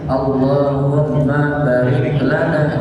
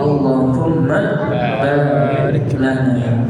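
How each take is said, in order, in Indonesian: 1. Vokal setelah b itu pendek. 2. Vokal setelah b itu panjang. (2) "banyak panjangin"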